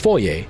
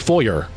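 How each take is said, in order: First: The word ends with an open 'ay' sound. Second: The word ends with an 'er' sound. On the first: Speakers here say it this way. "We say foyer. ... we use it with the French pronunciation" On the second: Americans say it this way. "Americans say foyer because there's an E R at the end"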